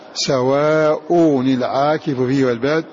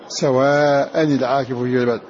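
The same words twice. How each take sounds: First: The first word ends with a u vowel. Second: The first word ends with an a vowel. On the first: "فقرأ غير حفص" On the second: "وقرأ حفص بنصبها"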